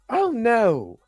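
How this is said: It is said in a put-on Miss Minutes voice.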